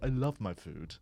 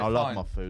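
First: It is said in a posh, refined accent. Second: It is said in a working-class accent. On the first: A refined diner would never say this. "No one sitting in a fine dining Michelin style restaurant is going" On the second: This is how a fry-up eater justifies his meal. "It's a geezer saying"

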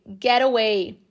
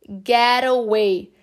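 First: The T in get sounds like a quick R. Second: The same.

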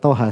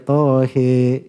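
First: The final vowel sounds like 'a'. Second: The final vowel sounds like 'i'. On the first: This is the usual reading without imala. "Cuma dikata toha" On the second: This is the reading with imala in another tradition. "Mereka baca tohi"

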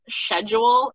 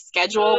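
First: A pronunciation that sounds pretentious. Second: A pronunciation that sounds ordinary. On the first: The speaker is trying to sound sophisticated. The speaker calls it wrong. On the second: The speaker is talking normally. The speaker calls it right.

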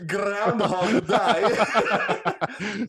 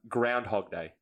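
First: It is said in his original accent. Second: It is said in his usual accent.

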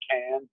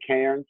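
First: It is said in an Australian accent, without R. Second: It is said in an American accent, with R.

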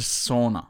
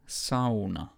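First: The word is said with a relaxed English pronunciation. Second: The word is said with full-mouthed Finnish pronunciation. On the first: The speaker calls it wrong. "it's not a sauna" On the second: The speaker calls it right. "Sauna is actually sauna"

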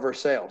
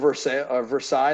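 First: The name is said with the local Kentucky pronunciation. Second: The name is said with its French pronunciation. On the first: "they call it Versailles. They say everything different" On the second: "they have a Versailles there"

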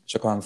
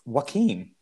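First: The name begins with a J sound. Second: The name begins with an H-like sound. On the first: The speaker calls it wrong. "Oh, I am so wrong" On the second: The speaker calls it right. "It's Joaquin"

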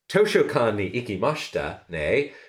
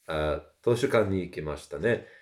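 First: It is said with a heavy American accent. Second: It is said with a natural Japanese accent. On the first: "I would occasionally just do that for comedic effect" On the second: "rather than"

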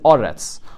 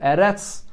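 First: The first vowel sounds like 'o'. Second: The first vowel sounds like 'e'. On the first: The word stands at the end of a verse. "or it could be read Oretz" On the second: The word stands in the middle of a verse. "so it could be read Eretz"

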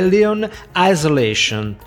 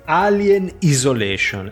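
First: It is said with English pronunciation. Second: It is said with Italian pronunciation.

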